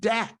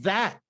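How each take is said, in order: First: The word begins with a d sound. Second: The word begins with a th sound. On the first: "it became" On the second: "instead of"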